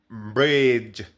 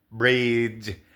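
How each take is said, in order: The two takes are said the same way.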